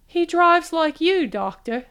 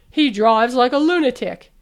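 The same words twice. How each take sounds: First: Raised, slow and superior; mock-grand teasing tone; lofty. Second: Said in the usual way. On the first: A narrator's reading. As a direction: put on a lofty air to tease him. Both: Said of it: "She made her voice lofty".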